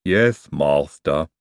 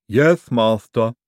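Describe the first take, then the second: First: Low, very slow lisping "Yes, master"; gloomy, dragged-out obedience. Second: Slow, louder lisping "Yes, master"; dutiful lisping henchman; lisping servant. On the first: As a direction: answer as a dejected lisping servant. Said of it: "said Igor gloomily". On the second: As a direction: answer obediently, drawing out each word. Igor answers a repeated order. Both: Acted.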